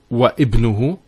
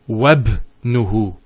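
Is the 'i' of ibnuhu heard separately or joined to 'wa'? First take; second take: separate; joined. First: The hamza vowel is pronounced as a separate syllable. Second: The waw runs straight into the b sound. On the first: The speaker calls it wrong. "It's not wa ibnuhu" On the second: The speaker calls it right. "it joins the waw to the word ibn"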